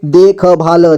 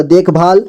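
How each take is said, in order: First: देखभाल with ख and ल each given a vowel; syllable by syllable. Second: Said in the usual way. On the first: Shown as a demonstration. Teacher breaking down देखभाल for learners, syllable by syllable. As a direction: sound out देखभाल piece by piece. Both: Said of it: "जोड़ जोड़ करके".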